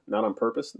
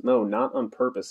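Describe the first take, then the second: First: "Not on purpose?" rising at the end; questioning. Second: "No, not on purpose" slow, falling at the end; conclusive. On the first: Parvana checks Ove's excuse, "Not on purpose?" as a rising question. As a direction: query "purpose" with a lifted ending. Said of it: "Parvana shook her head". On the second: Ove ends the discussion, "not on purpose" slow and final. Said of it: "as if this should wrap up the discussion". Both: A narrator's reading.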